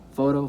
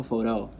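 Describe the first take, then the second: First: PHOTO as FOH-toh, front stressed; stress on first syllable. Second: PHOTO as foh-TOH, end stressed; stress on last syllable. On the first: Teacher contrasting two choices, photo stressed on FOH. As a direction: put the weight on the FOH of photo. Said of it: "the correct way, or you could say". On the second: Teacher contrasting two choices, photo stressed on TOH. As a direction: shift the weight of photo onto TOH. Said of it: "or you could say photo". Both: Shown as a demonstration.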